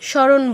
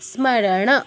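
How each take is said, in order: First: The m sound after the s is dropped. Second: The m sound after the s is fully pronounced. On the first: The speaker calls it wrong. "এখানে যে ম একটা আছে তাকে কোনো পাত্তাই দেই না, এটা সংস্কৃতে হবে না।" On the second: The speaker calls it right. "ম পূর্ণ উচ্চারণ"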